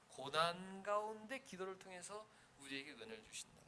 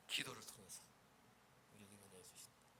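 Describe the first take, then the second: First: Said in the usual way. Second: Fading to a near-whisper, much softer; soft intimate close; hushed. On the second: Shown as a demonstration. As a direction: drop the voice on 우리에게 은혜를 주신다.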